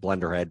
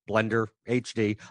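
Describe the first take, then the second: First: The ending is said as the word head. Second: The ending is spelled out as two letters. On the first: "even though it's Blenderhead" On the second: "I always have to say it that way"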